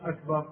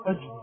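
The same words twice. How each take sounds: First: "أكبر" with a clear k, as akbar; correct kaf. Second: "أكبر" said as ajbar, with a j; kaf turned to jeem. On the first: Teacher contrasting the error, "أكبر" with a proper kaf. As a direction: sound a true k in "أكبر". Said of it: "مش". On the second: Teacher showing the error, "أكبر" as ajbar. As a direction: put a j in place of the k of "أكبر". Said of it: "قلب الكاف في أكبر جيما". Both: Shown as a demonstration.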